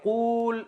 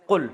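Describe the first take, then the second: First: قول with a long, drawn-out oo; long vowel. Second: قل with a short, quick u; shortened vowel. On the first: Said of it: "اب قول اتنا لمبا ہے". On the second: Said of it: "عرب نے اس کو بنا کے دیا قل". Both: Shown as a demonstration.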